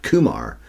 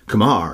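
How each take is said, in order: First: The stress is on the first syllable. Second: The stress is on the second syllable. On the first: The speaker calls it wrong. "not Kumar" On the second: The speaker calls it right. "The emphasis should be on the Mar part"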